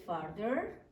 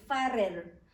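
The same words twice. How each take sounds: First: Farther said slowly as the right form; correct form farther. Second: Farther said as the wrong form farer. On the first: Teacher models farther slowly for students. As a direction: give farther as the correct comparative. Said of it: "tengo que decir, puede ser farther". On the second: Teacher says farther as the wrong form. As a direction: mark farther as the form not to use. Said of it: "no puedo decir farther". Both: Shown as a demonstration.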